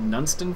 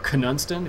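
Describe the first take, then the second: First: The word begins with an N sound, no K. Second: The word begins with a K sound before N. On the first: "I think you pronounce it as" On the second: "if you want to pronounce the K"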